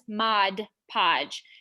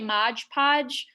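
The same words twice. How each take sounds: First: The two words are said so they don't rhyme. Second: The two words are said so they rhyme. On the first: The speaker calls it right. "but it is Mod Podge" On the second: The speaker calls it wrong. "it really does just roll off the tongue. You want to say that rhyme"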